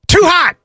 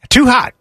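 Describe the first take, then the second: First: It is said with lively enthusiasm. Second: It is said flatly, without enthusiasm.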